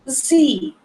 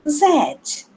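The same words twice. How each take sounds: First: The letter is said in an American accent. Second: The letter is said in a British accent. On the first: "no inglês americano" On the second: "No inglês britânico"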